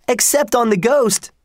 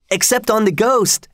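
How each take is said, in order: First: A second gleeful yell that falls on ghost; shouted. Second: Shouted. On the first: Twins shouting back to their father, falling on ghost. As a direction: shout ghost high, then let it fall. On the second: Twins shouting at their father, high and gleeful. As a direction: yell it out like cheeky twins. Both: A narrator's reading. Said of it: "shouted the twins".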